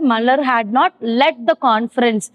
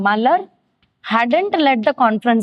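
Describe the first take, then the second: First: Had not is said as two full words. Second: Had not is said as one contracted word.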